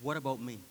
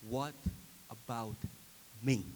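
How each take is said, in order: First: Said in the usual way. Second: WHAT, ABOUT, ME separated by pauses; word-by-word question. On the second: Shown as a demonstration. Preacher posing the self-examining question, word by word.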